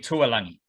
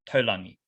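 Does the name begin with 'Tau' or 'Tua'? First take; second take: Tua; Tau. First: The name begins with the vowels u then a. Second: The name begins with the vowels a then u. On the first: The speaker calls it wrong. "any Aussie I hear, hear say his name in commentary" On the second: The speaker calls it right. "that that is pronounced Taulangi"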